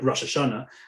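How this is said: It is said with the Ashkenazi Hebrew pronunciation. This is the traditional form the family uses.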